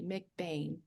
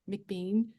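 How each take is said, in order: First: The last syllable rhymes with 'rain'. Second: The last syllable rhymes with 'seen'. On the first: The speaker calls it right. "it is McBain, everybody" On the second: The speaker calls it wrong. "a lot of people say Bean and McBean"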